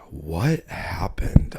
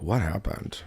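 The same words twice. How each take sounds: First: Very slow, drawn-out whisper; dazed whisper. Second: Said in the usual way. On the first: Retold or imitated. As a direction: whisper it slowly, as if dazed and drunk. Retelling drunken stumble home, dazed.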